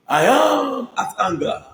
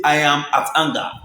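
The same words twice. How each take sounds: First: High, slow, drawn-out mock outrage; mock indignant. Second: Said in the usual way. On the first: Vlogger savouring the actress's line, slow and high. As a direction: stretch it out like the actress. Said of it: "drawn-out final imitation". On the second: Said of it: "they say".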